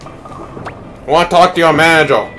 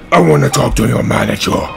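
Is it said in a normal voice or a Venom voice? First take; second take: normal; Venom voice. First: It is said in a normal voice. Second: It is said in a Venom voice.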